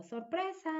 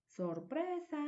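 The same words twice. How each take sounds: First: High, bright "¡Sorpresa!" call; spring the surprise on them; cheerful surprise. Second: High "Sorpresa" falling off; spring the surprise gently; cheerful surprise. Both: Shown as a demonstration. Woman surprises someone, high excited call.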